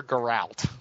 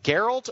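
First: "Geralt" as guh-RALT, stress at the end; Geralt stressed on second syllable. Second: "Geralt" as GER-alt, stress up front; Geralt stressed on first syllable. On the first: Host offering the other option, "Geralt" said guh-RALT. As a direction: say "Geralt" with a short first syllable and full RALT. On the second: Host checking a name, "Geralt" said GER-alt. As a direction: say "Geralt" with the weight on GER, second syllable reduced. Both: Shown as a demonstration. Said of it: "is it Geralt or Geralt?".

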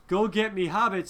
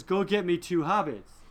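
First: Said in the usual way. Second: "two" leaned on a little harder, as the orders are quoted; stress on two. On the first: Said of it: "when Saruman says". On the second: Shown as a demonstration. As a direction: make sure "two" lands. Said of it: "he says".

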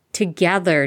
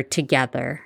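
First: "Together" stretched, stressed and falling, mildly exasperated; exasperated hiss. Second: "together" repeated, lower and rising, mildly pointed; exasperated hiss. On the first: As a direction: lean on the first syllable of "Together" with mild exasperation. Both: A narrator's reading. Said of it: "Hermione hissed in exasperation".

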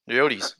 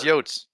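First: "Yotes" said as YO-teez; two syllables in "Yotes", ending in teez; self-corrected pronunciation. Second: "Yotes" said as YOHTS, one syllable; one-syllable slip. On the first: Host correcting his slip, "Yotes" as YO-teez. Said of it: "He had to correct himself". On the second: Host slipping while citing Max, "Yotes" in one syllable. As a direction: say "Yotes" to rhyme with boats. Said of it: "what does Max say". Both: Shown as a demonstration.

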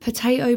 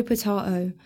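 First: "Potato" said the American way, pəteɪtoʊ; potato with a long a, pəteɪtoʊ. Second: "potato" said the British way, pətɑtoʊ; potato with a broad a, pətɑtoʊ. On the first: Girl brushing off villain question, pə-TAY-toe. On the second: Girl brushing off villain question, pə-TAH-toe. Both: Acted.

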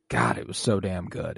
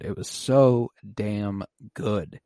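First: Said in the usual way. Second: Drawn-out stress on "so damn good"; slow emphatic repeat. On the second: Real, not acted. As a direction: stretch "so", "damn" and "good" out one by one. Repeats praise slowly for emphasis.

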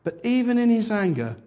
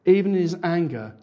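First: "in" pushed high and loud, lifted above the rest; stress on in. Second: "Even" punched louder, then falling; stress on even. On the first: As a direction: lean hard on "in". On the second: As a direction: hit the word "Even". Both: Shown as a demonstration.

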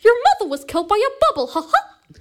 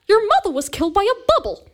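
First: Fast, high, louder cartoon mouse voice ending in a squeaky ha ha; Mickey Mouse again. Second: High squeaky cartoon mouse voice, much louder; Mickey Mouse impression. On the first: [name] repeats her Mickey line, faster and squeakier. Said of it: "The best impression I can do". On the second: Host hears [name] do Mickey Mouse, high and squeaky. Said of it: "that animal is Mickey Mouse".

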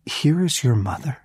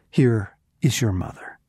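First: Higher, rising in disbelief on here; incredulous rise. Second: Said in the usual way. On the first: Shown as a demonstration. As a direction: say it as if you can't believe it. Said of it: "you have got to be kidding me".

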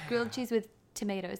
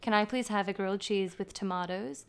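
First: Resigned order, "tomatoes" as tuh-MAY-toes; American pronunciation. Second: Polite order, "tomatoes" as tuh-MAH-toes; Australian pronunciation. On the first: Giving in to confused staff, "tomatoes" as tuh-MAY-toes. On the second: Customer ordering grilled cheese, "tomatoes" as tuh-MAH-toes. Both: Retold or imitated. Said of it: "one vowel sound difference".

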